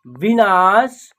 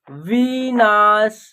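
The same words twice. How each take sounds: First: Said in the usual way. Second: "विनाश" stretched slowly, long वी and ना; drawn-out sounding out. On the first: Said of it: "एक शब्द तैयार हो जाएगा". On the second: Shown as a demonstration. Teacher sounding out a word, "विनाश" slowly stretched. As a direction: draw out each syllable of "विनाश". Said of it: "तीनों को जोड़ेंगे तो एक शब्द".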